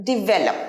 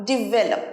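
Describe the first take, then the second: Both takes have the same delivery.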